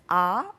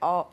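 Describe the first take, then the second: First: The vowel is said with a clear, open mouth. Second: The vowel is mumbled through nearly closed teeth. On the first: The speaker calls it right. "입술 모양이 그 모음에 따라서 완전히 완벽히 바뀝니다" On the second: The speaker calls it wrong. "이를 꽉 깨물고 ... 이렇게 대강대강 말하는"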